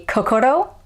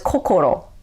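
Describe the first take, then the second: First: The vowels sound like American English vowels. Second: The vowels sound like Japanese vowels. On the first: The speaker calls it wrong. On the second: The speaker calls it right.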